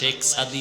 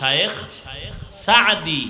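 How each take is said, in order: First: The first word is said as one syllable. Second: The first word is said as two syllables. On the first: "বাংলায় শেখ সাদি লেখে" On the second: "শব্দ উচ্চারণ শুদ্ধ হলো শায়েখ সাদি"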